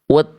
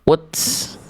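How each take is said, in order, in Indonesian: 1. t diakhiri dengan hembusan napas ringan. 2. t diakhiri dengan bunyi s yang mendesis. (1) "tapi harusnya dibaca at, it, ut" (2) "bunyinya bukan ats, its, uts"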